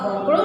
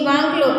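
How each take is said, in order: First: The first vowel is a rounded 'o' sound. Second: The first vowel is an open 'aa' sound. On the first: This is how the outsider mispronounces the word. "એ પાછો જુદો ઉચ્ચાર કરે છે" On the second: This is how the local speaker says the word. "લક્ષ્મી વાંકલો કે છે"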